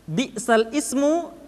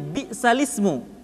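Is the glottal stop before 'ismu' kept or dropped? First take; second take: kept; dropped. First: A glottal stop separates the two words. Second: The words run together with no glottal stop. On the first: This is the original written form. "Kalimatnya asalnya bi'sal ismu" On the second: This is how it is actually recited. "dibaca menjadi bi'salismu"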